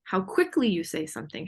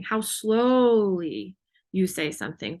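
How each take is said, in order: First: QUICKLY said short and light; quick delivery. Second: Slow phrase with a long, stretched SLOWLY; slow for emphasis. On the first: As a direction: say it briskly, without lingering on QUICKLY. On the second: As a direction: draw SLOWLY right out. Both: Shown as a demonstration.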